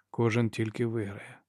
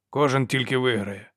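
First: "Кожен тільки виграє" repeated softer and slower; echoing the soldier's words, soft and slow; quiet echo. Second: Said in the usual way. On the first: Acted. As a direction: echo the phrase quietly, slowing down.

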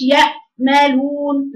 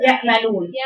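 First: Slow "يأملون" with a silent gap after the hamza; mistaken pause. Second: "يأملون" with the sound stopped at the hamza; cut hamza. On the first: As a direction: halt too long inside "يأملون" after "يأ". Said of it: "ده بنعمل عليه سكت". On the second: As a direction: close firmly on the hamza in "يأملون". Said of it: "اقطعي المخرج". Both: Shown as a demonstration.

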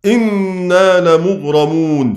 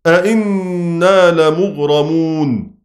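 First: إنا لمغرمون read slowly with a single hamza; statement reading. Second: أئنا لمغرمون read slowly with two hamzas; question reading. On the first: Teacher reciting the majority reading to students, slow. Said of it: "هيقرأ بالإخبار". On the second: Teacher reciting Shu'ba's reading to students, slow. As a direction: voice both hamzas in أئنا lmغرمون distinctly. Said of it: "فشعبة يقرأ بالاستفهام". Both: Shown as a demonstration.

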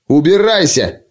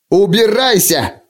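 First: Higher, brief dismissal; tossed over the shoulder. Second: High, drawn-out angry cry; shouted order. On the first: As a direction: throw it back over your shoulder. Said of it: "кинул через плечо". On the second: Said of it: "крикнул принц". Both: A narrator's reading.

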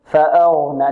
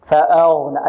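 First: فأغنى with a heavy ghayn and unrounded lips. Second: فأغنى with lips wrongly rounded on the heavy ghayn. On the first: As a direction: make غ heavy from the throat, lips relaxed, in فأغنى. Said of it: "لا، بدون ضم الشفتين". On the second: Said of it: "البعض يعتمد على الشفتين في التفخيم". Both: Shown as a demonstration.

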